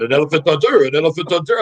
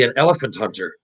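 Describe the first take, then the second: First: Imitated French accent on the quote. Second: Said in the usual way. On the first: Teammate announcing his career after hockey, imitated French accent. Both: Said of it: "He's saying in his French accent".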